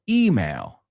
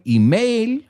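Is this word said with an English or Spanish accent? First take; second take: English; Spanish. First: It is said with a native English accent. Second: It is said with a Spanish accent. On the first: This is how native English speakers say it. "we say email" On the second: This is how Spanish speakers say it. "You say email"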